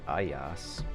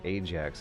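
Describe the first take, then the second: First: The name is said with a 'y' sound. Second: The name is said with a 'j' sound. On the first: This is the original Greek form of the name. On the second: This is the common English form of the name.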